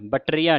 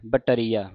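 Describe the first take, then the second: First: ਬਟਰੀਆ squashed as batt-riya; wrong pronunciation demo. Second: ਬਟਰੀਆ as ba, tariya; correct pronunciation demo. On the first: Teacher warning against it, squashed batt-riya for ਬਟਰੀਆ. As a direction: drop the middle vowel of ਬਟਰੀਆ. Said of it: "ਬਟਰੀਆ ਨਹੀਂ ਕਹਿਣਾ". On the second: Teacher showing the split, ਬਟਰੀਆ as ba-tariya. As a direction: keep the ba of ਬਟਰੀਆ apart from tariya. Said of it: "ਤੇ ਟਰੀਆ ਵੱਖਰਾ ਕਰ ਦੇਣਾ". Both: Shown as a demonstration.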